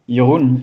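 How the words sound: The name is said in a French way. "If you're familiar with French, Jeroen is the way to, to go"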